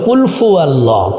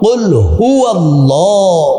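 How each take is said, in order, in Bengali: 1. দ্বিতীয় শব্দটি f ধ্বনি দিয়ে শুরু হয়। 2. দ্বিতীয় শব্দটি h ধ্বনি দিয়ে শুরু হয়। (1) "অনেকে বলে কুল ফু আল্লাহ" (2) "নো"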